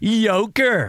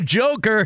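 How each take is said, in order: First: The word begins with a 'y' sound, like 'yolk'. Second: The word begins with a 'j' sound, like 'joke'. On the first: The speaker calls it right. "you mean like almost like eggs?" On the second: The speaker calls it wrong. "He's not the Joker"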